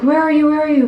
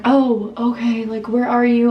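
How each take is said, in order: First: High, loud mock panic; imitating freaking out. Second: Said in the usual way. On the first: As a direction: fire it out in imitated alarm. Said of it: "like, freaking out".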